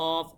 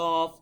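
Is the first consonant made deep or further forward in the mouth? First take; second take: deep; deep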